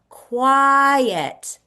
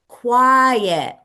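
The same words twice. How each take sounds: First: The word is drawn out slowly. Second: The word is said at normal length.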